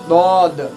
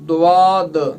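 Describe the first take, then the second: First: The first sound is a heavy, thick d. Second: The first sound has a w-glide after it. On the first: "दाल का मोटा पढ़ते हैं" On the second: "उसमें वाह की वो आवाज़ निकालते हैं"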